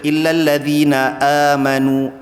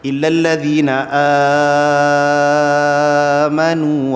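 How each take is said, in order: First: The first vowel of amanu is held briefly. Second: The first vowel of amanu is held very long. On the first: "a dua harakat" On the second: "A tu dipanjangkan enam harakat"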